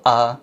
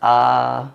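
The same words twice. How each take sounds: First: The vowel is short. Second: The vowel is drawn out long. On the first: "जब हमने इसको ज़बर के साथ पढ़ा तो आ" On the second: "इसको फिर हम दो अलिफ के बराबर इसको खींचेंगे"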